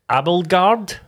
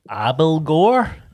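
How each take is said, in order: First: The name is said in an anglicized form. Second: The name is said in its native form. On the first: This is how many others say the name. The speaker calls it wrong. "other people pronounce it" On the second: This is how the name is properly said. The speaker calls it right. "the correct pronunciation, I believe, is"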